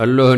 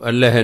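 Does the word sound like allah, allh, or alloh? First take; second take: alloh; allh. First: It is said alloh, with an o vowel. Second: It is said allh, with no vowel before h. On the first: "ਉਹਨੂੰ ਅੱਲੋਹ ਨਹੀਂ ਪੜ੍ਹਨਾ" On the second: "ਇਹਨੂੰ ਅੱਲ੍ਹ ਨਹੀਂ ਪੜ੍ਹਨਾ"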